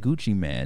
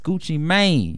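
First: The second word has a short A vowel. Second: The second word has a long A vowel. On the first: The speaker calls it wrong. "I don't know why people still say [name]" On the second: The speaker calls it right. "It's [name]. You got to add the E in there"

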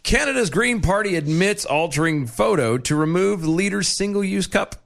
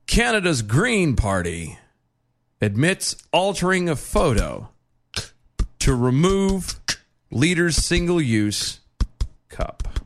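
First: The headline is read in a plain, casual way. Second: The headline is read in a grave, dramatic way. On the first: "I don't think y'all got this" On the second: "in the best way I can do to convey the severity of what this is"

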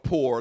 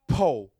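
First: It is said the standard way, with r. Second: It is said the Alabama way, without r.

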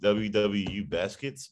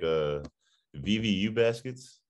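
First: The letters are said with English letter names. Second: The letters are said with German letter names. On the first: "To an American, it's it's like" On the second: "the way they pronounce it here is like"

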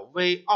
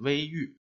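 First: The second syllable is pronounced 'ao'. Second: The second syllable is pronounced 'yu'. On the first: The speaker calls it wrong. "注解给我们说的这两个字叫微傲啊" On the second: The speaker calls it right. "最好是取欲的读音啊，念微欲"

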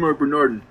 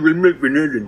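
First: The voice sounds thinner, without extra fullness. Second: The voice sounds fuller and thicker.

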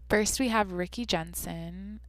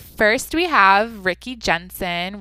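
First: The put-on voice sounds deliberately sultry and seductive. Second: The put-on voice sounds only mildly seductive. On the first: The speaker calls it right. "I gotta, like, try to be sexy" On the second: The speaker calls it wrong. "no, that's not sexy enough"

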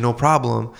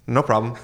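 First: It sounds warm and willing. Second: It sounds grudging and put-upon.

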